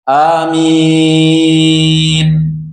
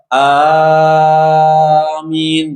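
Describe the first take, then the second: First: The second vowel is drawn out long. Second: The first vowel is drawn out long. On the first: The speaker calls it right. "memanjangkan minnya" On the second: The speaker calls it wrong. "kebanyakan kita hanya juga pan panjang"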